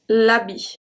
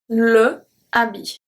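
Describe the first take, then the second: First: The article's consonant joins straight onto the noun. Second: The article is a separate syllable before the noun. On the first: The speaker calls it right. "So it's going to be l'habit" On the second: The speaker calls it wrong. "I can't say le habit. Can't say that"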